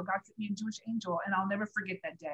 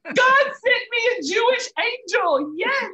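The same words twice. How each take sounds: First: Softer, faster, reflective restatement; hushed grateful recap; quiet reflection. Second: Much higher and louder, slow and exultant; joyful exclaim. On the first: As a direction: say it softly, wrapping up. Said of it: "it was an angel". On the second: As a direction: burst out with joy and wonder. Overjoyed retelling of divine meeting. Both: Real, not acted.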